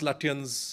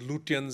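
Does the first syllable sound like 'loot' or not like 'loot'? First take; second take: not loot; loot. First: The first syllable does not sound like 'loot'. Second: The first syllable sounds like 'loot'. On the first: The speaker calls it right. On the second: The speaker calls it wrong.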